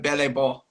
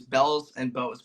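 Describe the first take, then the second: First: The name is pronounced like French words. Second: The name is pronounced like English words. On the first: The speaker calls it right. "some announcers say it correctly" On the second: The speaker calls it wrong. "which is an incorrect pronunciation"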